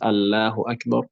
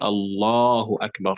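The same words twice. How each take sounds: First: The L sound in Allahu is light and thin. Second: The L sound in Allahu is heavy and dark. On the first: The speaker calls it wrong. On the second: The speaker calls it right. "that lam will also be, be made heavy. So you say"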